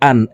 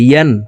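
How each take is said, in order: First: The syllable starts with a glottal stop. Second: The syllable starts with a y sound. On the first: The speaker calls it wrong. "আমরা অনেকে ইয়া হরফের উচ্চারণ সঠিকভাবে পড়তে পারি না, ইয়া আলিফ দুই জবর আন এইভাবে পড়ে থাকি, হামজার উচ্চারণ করে থাকি।" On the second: The speaker calls it right. "ইয়ার উচ্চারণ জিব্বার মধ্যখান থেকে পড়তে হবে"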